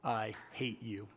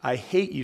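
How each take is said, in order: First: Low, soft, slow words through clenched teeth. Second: Said in the usual way. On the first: A narrator's reading. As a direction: spit it out quietly through locked teeth. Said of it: "said through clenched teeth". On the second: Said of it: "said the girl".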